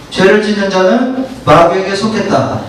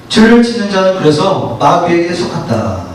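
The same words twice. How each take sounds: First: Said in the usual way. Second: 죄를 강하게 짚어 읽기; 죄를 앞세워 또박또박 낭독; stress on 죄를. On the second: Shown as a demonstration. (죄를 힘주어 읽는 성경 낭독)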